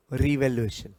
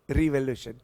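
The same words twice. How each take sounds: The two takes are said the same way.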